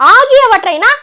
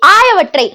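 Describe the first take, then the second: First: The word is said with every syllable. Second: The word is said with a syllable dropped. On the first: The speaker calls it right. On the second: The speaker calls it wrong.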